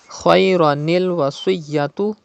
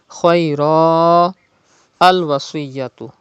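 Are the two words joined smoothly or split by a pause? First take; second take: joined; pause. First: The words run together with a linking 'ni' sound. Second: A pause separates the words with no linking sound. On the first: "when you are reading the words without waqf" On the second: "In case of waqf"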